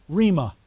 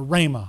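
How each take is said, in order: First: First syllable of Rhema rhymes with "see"; Rhema as REE-ma. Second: First syllable of Rhema rhymes with "day"; Rhema as RAY-ma. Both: Shown as a demonstration. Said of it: "however you want to pronounce it".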